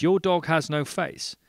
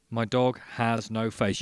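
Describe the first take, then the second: First: High, loud astonished echo; acted incredulity. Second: Loud, deliberate acted statement; emphatic announcement. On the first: Barman echoing man about faceless dog, incredulous. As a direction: throw it back in mock disbelief. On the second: Man telling barman about his faceless dog, emphatic. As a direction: declare it firmly as a fact.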